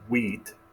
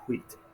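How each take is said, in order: First: It starts with a plain w sound. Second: It starts with a breathy hw sound. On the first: The speaker calls it wrong. "definitely not wheat" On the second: The speaker calls it right. "like the W and the H together"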